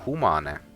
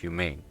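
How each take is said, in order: First: The word is said with a non-English pronunciation. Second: The word sounds like the English word humane. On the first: The speaker calls it right. "when it should be Saku humane" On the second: The speaker calls it wrong. "like in English"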